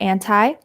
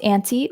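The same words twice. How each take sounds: First: "anti" ending like "tie"; "anti" with an eye sound ending; pronounced "an-tie". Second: "anti" ending like "tea"; "anti" with an ee sound ending; pronounced "an-tee". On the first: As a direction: say "anti" as AN-tie, long I at the end. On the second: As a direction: say "anti" as AN-tee, long E at the end. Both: Shown as a demonstration. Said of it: "can be pronounced anti or anti".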